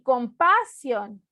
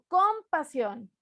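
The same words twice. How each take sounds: First: The stress is on the second syllable. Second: The stress is on the first syllable. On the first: "ni compasión" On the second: "No digo compasión"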